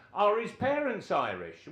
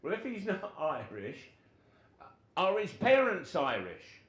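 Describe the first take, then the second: First: High and loud, insistent question; pitched-up insistent boss demand; manager's loud repeat. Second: Builds from a raised question to a loud demand; pitched up and getting louder; manager pressing. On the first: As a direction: hammer the question again, higher. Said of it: "so Gordon Lee says". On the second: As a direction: push the question harder at the end. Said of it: "Gordon Lee says". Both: Retold or imitated.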